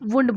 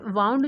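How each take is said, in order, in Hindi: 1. स्वर 'moon' में 'oo' की तरह लगता है। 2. स्वर 'cow' में 'ow' की तरह लगता है। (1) "अमेरिकन इंग्लिश में इसे वुंड बोला जाता है" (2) "ये वाउंड जो है वो ब्रिटिश इंग्लिश में बोलते हैं"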